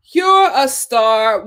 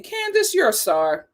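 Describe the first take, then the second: First: Very slow, each word stretched; slow and a bit louder, like a proclamation; slow emphatic repeat. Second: Said in the usual way. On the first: Shown as a demonstration. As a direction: drag it out to make it count.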